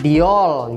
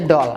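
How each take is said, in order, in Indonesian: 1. Huruf d diucapkan seperti 'dee', dua suku kata. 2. Huruf d-nya biasa saja, satu suku kata. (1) "nggak diol gitu ya" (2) "ya kan tetap aja doll"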